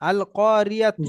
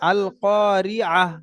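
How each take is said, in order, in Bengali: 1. শব্দটি পূর্ণ 'tu' ধ্বনি দিয়ে শেষ হয়। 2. শব্দটি হালকা 'h' ধ্বনি দিয়ে শেষ হয়। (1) "তা পেশ তু আছে" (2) "গোলতা যখন থাকবে তখন হা সাকিন করতে হবে"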